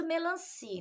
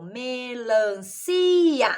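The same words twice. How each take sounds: First: Said in the usual way. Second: "melancia" slowly split me-lan-ci-a; syllable by syllable. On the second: Shown as a demonstration. Teacher counting pieces for the class, slow "melancia" as me-lan-ci-a. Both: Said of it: "contar quantos pedaços".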